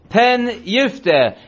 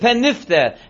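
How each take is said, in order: First: The second word starts with a clear y sound. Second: The second word starts with an n sound. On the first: The speaker calls it right. "You have to make sure the yifte is its own word" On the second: The speaker calls it wrong. "if you don't emphasize the yud, pen yifte, you're saying pen nifte"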